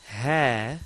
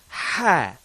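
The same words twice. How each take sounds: First: The h sound is light with little breath. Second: The h sound is forceful with lots of breath. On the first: The speaker calls it wrong. "Not ha" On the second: The speaker calls it right. "Let's get some real oomph into that ha"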